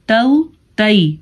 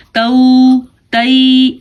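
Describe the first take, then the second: First: تو، تی as short, gentle "tau, tai"; soft, short glide. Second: تو، تی dragged out as long "tauuu, taiii"; overlong, wrong reading. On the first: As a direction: glide lightly through تو، تی and let go quickly. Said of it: "نرمی سے پڑھنا ہے". (نرمی سے چھوٹا تو، تی) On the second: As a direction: stretch the glides of تو، تی far too long. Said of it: "ایسے ہم نہیں پڑھ سکتے". (تو، تی کو غلط کھینچ کر) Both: Shown as a demonstration.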